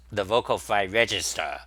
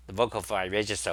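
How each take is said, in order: First: Vocal fry demo. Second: Said in the usual way. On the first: Shown as a demonstration. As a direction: let the voice rattle down into fry. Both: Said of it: "vocal fry is basically like this".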